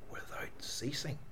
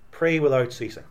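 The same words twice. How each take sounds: First: Hushed echo of the verse, almost breath; whisper. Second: Said in the usual way. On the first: Shown as a demonstration. Preacher repeating the verse to the congregation in a whisper. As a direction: let the words fall to a whisper. Verse echoed softly after plain reading.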